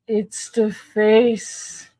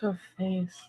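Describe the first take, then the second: First: "face" stretched long and slow, heavy stress; drawn-out face. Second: Said in the usual way. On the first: Real, not acted. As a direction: drag out the word "face" in disbelief. Repeats the phrase, reacting.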